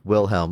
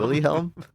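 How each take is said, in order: First: The name is said with two syllables. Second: The name is said with three syllables. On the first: The speaker calls it right. "Let's go with that" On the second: The speaker calls it wrong. "I think you were saying Willyhelm"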